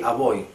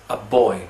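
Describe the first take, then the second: First: The b sound in 'boy' is soft, lips barely touching. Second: The b sound in 'boy' is a hard stop. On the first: The speaker calls it wrong. "that's not English" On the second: The speaker calls it right. "It's a boy"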